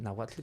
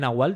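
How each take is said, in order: First: The word ends with a 'tl' sound. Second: The word ends with a plain 'l' sound. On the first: The speaker calls it right. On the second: The speaker calls it wrong. "que yo decía Nahual"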